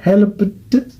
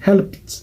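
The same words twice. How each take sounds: First: Helped broken up, with a separate released T at the end; wrong extra syllable. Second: Helped ending in a crisp voiceless PT cluster; one-syllable helped. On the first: Teacher showing learners the mistake, helped with an added syllable. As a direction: split helped into help-uh-tuh, slowly. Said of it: "Ce n'est pas helped". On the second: Teacher giving learners the correct form, helped said as helpt. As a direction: say helped as helpt, no vowel before the T. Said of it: "c'est helped". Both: Shown as a demonstration.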